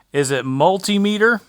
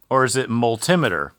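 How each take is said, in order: First: Multimeter said as MUL-tee-MEE-ter; long ee in the meter of multimeter; pronunciation query. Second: Multimeter said as mul-TIM-uh-ter; pronunciation query. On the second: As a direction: stress the TIM in multimeter, short i. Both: Shown as a demonstration. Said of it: "however you pronounce it".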